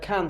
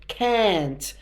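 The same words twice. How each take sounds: First: The vowel is short and plain. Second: The vowel is lengthened and lingered on. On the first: "instead of" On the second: "You really you really sort of linger on the a's in words"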